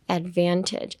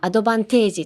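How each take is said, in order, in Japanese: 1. 自然な英語の音で発音されています。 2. カタカナの音節で、日本風に発音されています。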